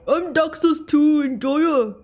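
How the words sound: It is said in an imitation of another voice.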